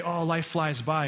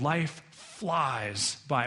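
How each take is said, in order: First: Said in the usual way. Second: LIFE and FLIES drawn out very slowly; very slow, pondered "Life flies by"; weighty and slow. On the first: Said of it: "Like, we say". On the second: Acted. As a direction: stretch "flies" right out, with a pause before it. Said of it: "Moses is going".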